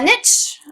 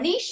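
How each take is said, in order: First: The word rhymes with 'itch'. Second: The word rhymes with 'leash'. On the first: It is the everyday, unpretentious way to say it. "I am not classy" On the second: It is the fancier, more refined way to say it. "if you want to be classy"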